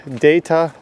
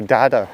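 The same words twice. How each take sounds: First: DATA said slowly as DAY-tuh; data, first vowel as in "day"; long-A data. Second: DATA said slowly as DAH-tuh; data, first vowel as an open "ah". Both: Shown as a demonstration. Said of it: "Do you say data or data?".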